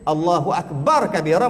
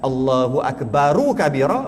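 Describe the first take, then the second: First: The r of Akbar is silenced, without vowel. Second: The r of Akbar carries a vowel. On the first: This is the more eloquent reading. "fasih. Terbaik" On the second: This reading is acceptable.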